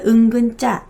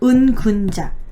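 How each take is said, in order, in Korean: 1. 가운데 음절에는 평평한 'eu' 모음이 있어요. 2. 가운데 음절에는 둥근 'u' 모음이 있어요. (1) "말하다 보니까 은근자라고 발음하기도 합니다" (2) "한문으로 어, 은군자라고 불렀어요"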